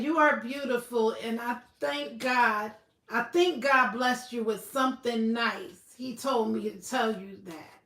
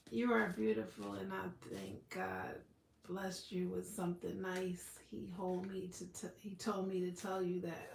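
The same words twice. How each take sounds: First: Said in the usual way. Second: Spirit guide voice. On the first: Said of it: "Moonwalker said". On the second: Acted. A spirit guide giving a viewer a message, low and hushed. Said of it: "spirit person or guide".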